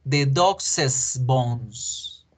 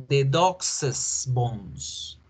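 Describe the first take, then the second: No difference in how they are said.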